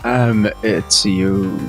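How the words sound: It is said in a put-on sexy voice.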